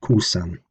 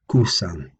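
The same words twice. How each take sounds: First: Kusan with a long u, falling; Old English kusan. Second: Kusan again lower, falling; Old English kusan. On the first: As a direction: say kusan, stress on ku. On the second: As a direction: repeat kusan slowly with long u. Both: Shown as a demonstration. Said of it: "becoming in Old English kusan".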